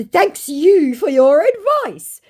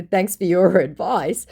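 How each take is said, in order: First: Higher, slow put-on scammer voice; mock scammer voice. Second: Said in the usual way. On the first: Vlogger imitating the scammer's smug thanks. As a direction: drag out the thanks smugly. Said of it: "To which he said". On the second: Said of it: "And in response to".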